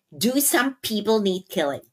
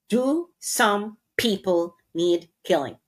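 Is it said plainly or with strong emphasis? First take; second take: plainly; strong emphasis. First: It is said plainly, without extra emphasis. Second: It is said with strong, forceful emphasis.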